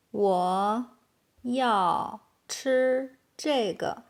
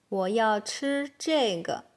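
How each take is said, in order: First: Slow, separated words. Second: Said in the usual way. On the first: Shown as a demonstration. Teacher giving learners the translation, slow and word by word. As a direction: leave a gap after each word. Slow model, then natural take.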